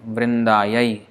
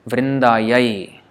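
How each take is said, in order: Both takes have the same delivery.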